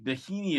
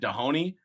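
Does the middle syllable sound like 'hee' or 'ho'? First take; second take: hee; ho. First: The middle syllable has an 'ee' vowel. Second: The middle syllable has an 'oh' vowel. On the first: The speaker calls it right. "Dahini is the name" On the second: The speaker calls it wrong. "I was saying it wrong the whole time"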